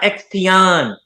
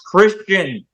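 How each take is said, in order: First: The name starts with an X sound. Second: The name starts with a K sound. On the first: The speaker calls it wrong. "not Xtion" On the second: The speaker calls it right.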